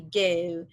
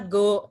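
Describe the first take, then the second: First: The vowel is a British-style gliding diphthong. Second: The vowel is a plain, familiar O sound. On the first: "Jadi kamu ubah jadi go" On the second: "Contohnya go tadi"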